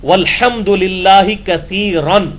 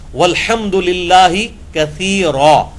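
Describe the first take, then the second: First: The last word ends with an 'n' sound. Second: The last word ends with a long 'a'. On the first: The phrase is read without stopping at the end. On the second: The reader stops at the end of the phrase.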